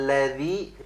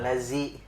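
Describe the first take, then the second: First: The middle consonant is a soft 'th' sound. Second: The middle consonant is a buzzing 'z' sound. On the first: The speaker calls it right. "pakai zal ya" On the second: The speaker calls it wrong. "bukan lazi, bukan pakai zai"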